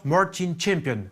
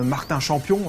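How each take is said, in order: First: The name is said with an American accent. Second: The name is said with a French accent. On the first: It sounds classier. The speaker calls it right. "je l'ai prononcé à l'américaine" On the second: It sounds less classy. The speaker calls it wrong. "ça faisait tout de suite moins classe"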